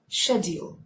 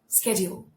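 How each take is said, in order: First: The word is said in a British accent. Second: The word is said in an American accent. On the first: "when you use the British accent, this is how you articulate it" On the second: "coming to American accent"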